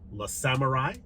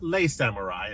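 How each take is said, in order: First: The first word sounds like 'luh'. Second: The first word sounds like 'lay'. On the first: The speaker calls it right. "not Les Samurai" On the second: The speaker calls it wrong. "as I mispronounced in my review"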